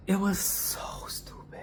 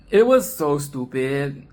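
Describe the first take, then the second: First: Whispered, much softer. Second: Said in the usual way. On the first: Shown as a demonstration. Reviewer whispering her verdict on the film. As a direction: breathe it as a secret aside. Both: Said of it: "repeated as whisper".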